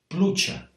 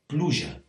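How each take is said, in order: First: It is said in the apitxat Valencian accent. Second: It is said in a non-apitxat Valencian accent. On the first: "you get pronunciations of things like" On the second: "whereas I would be more likely to say"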